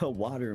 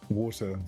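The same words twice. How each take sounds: First: It is said in an American accent. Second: It is said in a British accent.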